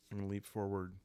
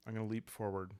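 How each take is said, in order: Both takes have the same delivery.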